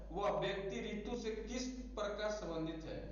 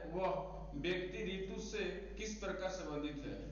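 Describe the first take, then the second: Both takes have the same delivery.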